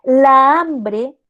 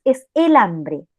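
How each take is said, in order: First: "La hambre" fuerte, con "La" alargado; choque de vocales. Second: "el hambre" dicho despacio; artículo masculino marcado. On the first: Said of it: "empieza con A". ("La hambre" con la doble a bien marcada) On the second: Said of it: "el artículo es en masculino". ("el hambre" lento, con el artículo claro) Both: Shown as a demonstration.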